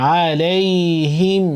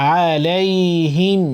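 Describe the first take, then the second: No difference in how they are said.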